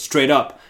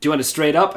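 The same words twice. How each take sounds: First: "Straight up" as a falling, louder retort; lightly cheeky bully, landing firmly on "up"; kinda cheeky. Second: "straight up" rising as a question, higher and louder; bartender's question. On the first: Bully answering the bartender, kinda cheeky, "Straight up" falling. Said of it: "bully guy says kinda cheekily". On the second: Bartender taking a drink order, "straight up" rising as a question. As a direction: ask it brightly, lifting on "straight up". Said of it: "and the bartender goes". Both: Retold or imitated.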